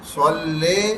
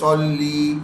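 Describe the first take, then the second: First: The final vowel is a long 'ay' sound. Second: The final vowel is a short 'ee' sound. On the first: The speaker calls it wrong. "ले में बड़ी या की आवाज आ रही है" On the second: The speaker calls it right. "ली में छोटी या की आवाज आ रही है"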